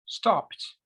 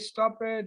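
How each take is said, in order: First: It is one syllable ending in a t sound. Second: It is two syllables ending in 'it'. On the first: The speaker calls it right. "you say stopped" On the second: The speaker calls it wrong. "I don't say stop it"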